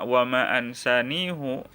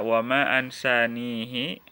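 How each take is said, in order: First: The word ends with an 'u' vowel after h. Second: The word ends with an 'i' vowel after h.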